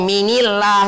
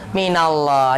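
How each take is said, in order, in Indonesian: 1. Vokal i menghubungkan min dengan Allah. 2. Vokal a menghubungkan min dengan Allah. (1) "kita nggak ngomong"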